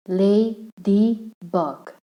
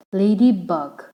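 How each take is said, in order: First: "Ladybug" slowly in three separate syllables; broken into syllables. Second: Said in the usual way. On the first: Shown as a demonstration. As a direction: pause between each syllable of "Ladybug". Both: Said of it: "That means three syllable".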